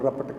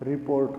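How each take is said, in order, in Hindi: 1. यह शब्द छोटा होकर 'rapat' बोला गया है। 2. यह शब्द 'report' के रूप में पूरा बोला गया है।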